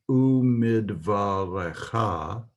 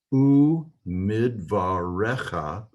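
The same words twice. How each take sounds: First: "u midvarecha" ending on a long, stressed -CHA; "u midvarecha" with a reduced e, leaning on the last syllable; pronounced-form pronunciation. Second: "u midvarecha" with the e stressed and a short final -cha; drawn-out "u midvarecha", slow and careful; written-form pronunciation. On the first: Hebrew teacher sounding out the pronounced form, careful pronunciation. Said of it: "The pronounced form would be". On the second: Hebrew teacher sounding out the written form, slow careful pronunciation. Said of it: "written form would be pronounced". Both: Shown as a demonstration.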